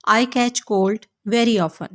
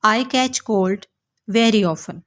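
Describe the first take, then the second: No difference in how they are said.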